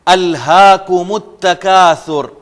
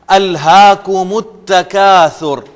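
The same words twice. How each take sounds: First: The two words are linked into one flow. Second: The two words are linked into one flow.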